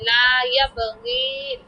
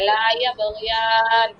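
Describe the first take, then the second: First: The last word ends in a short '-in'. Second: The last word ends in a long '-iyan'. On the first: The speaker calls it wrong. "আপনি এরকম উচ্চারণ করেছেন না যে লা ইয়াবগিন" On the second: The speaker calls it right. "খাড়া জবর তার জন্য এটা"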